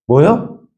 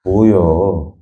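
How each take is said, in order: First: Short mock-angry question, rising sharply at the end; quick, rising mock indignation; acted anger. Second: Low, drawn-out mock annoyance; comic Chungcheong irritation, pitched low and stretched; acted irritation. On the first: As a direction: demonstrate an angry Chungcheong comeback. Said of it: "화나면, 화나면 어떻죠?". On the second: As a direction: let it sag, as if fed up. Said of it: "짜증나면 어때요?".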